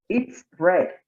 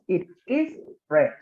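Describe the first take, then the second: First: The pronoun and verb are joined in one syllable. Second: The pronoun and verb are said as separate words. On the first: "pronunciarlo como si estuviera contraído" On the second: "como si fuera eh, no contraída la forma"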